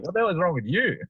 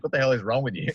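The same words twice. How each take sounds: First: Much higher and louder, mocking incredulity; mock outraged retort; exaggerated echo. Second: Imitating her, a little higher and louder, exasperated; mock disbelieving partner; incredulous girlfriend. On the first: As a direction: fire the same question back, hammed up. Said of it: "And I'm like". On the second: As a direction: throw her baffled question back as she said it. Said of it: "and she's like".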